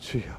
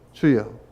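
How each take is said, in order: First: It is said quietly under the breath. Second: It is said loudly and openly.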